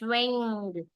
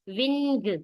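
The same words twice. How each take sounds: First: The ending is one blended ng sound. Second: The n and g are sounded separately. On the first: The speaker calls it right. "It's wing" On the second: The speaker calls it wrong. "not wing, wing nahi"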